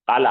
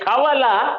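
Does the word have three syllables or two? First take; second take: two; three. First: The word has two syllables with a long a. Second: The word has three syllables with a middle w. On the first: This shortened form is easy to say. The speaker calls it right. "हाँ ये जमता" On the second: This full form is awkward to say. The speaker calls it wrong. "ये कावाला नहीं जमता"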